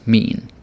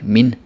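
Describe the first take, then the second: First: The vowel is drawn out longer. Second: The vowel is short and clipped. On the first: The speaker calls it right. "It's a little bit longer" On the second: The speaker calls it wrong. "say it in a very hard way"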